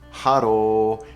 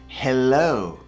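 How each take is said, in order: First: The middle consonant sounds like an R. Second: The middle consonant sounds like an L. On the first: The speaker calls it wrong. "it's not haro" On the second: The speaker calls it right. "it's hello"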